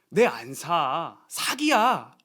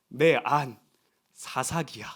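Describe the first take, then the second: First: The pause comes after 'nae an sa'. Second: The pause comes after 'nae an'.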